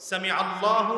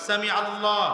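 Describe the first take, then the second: Both takes have the same delivery.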